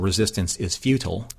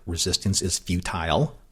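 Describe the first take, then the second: First: Futile is said with an American pronunciation. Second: Futile is said with a British pronunciation. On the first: "she says it in the non-Locutus way, the non-Patrick Stewart British way" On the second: "he says it like Locutus would say it"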